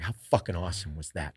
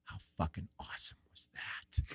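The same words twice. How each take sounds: First: Said in the usual way. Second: Awed whisper. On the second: Retold or imitated. Hunting partner after the animals flee, imitated awed whisper. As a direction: whisper it with quiet relish. Partner's hushed reaction, retold.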